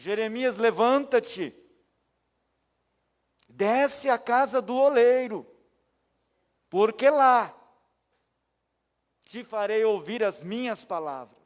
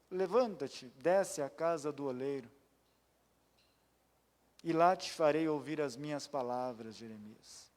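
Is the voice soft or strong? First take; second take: strong; soft. First: The voice is strong and forceful. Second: The voice is soft and gentle.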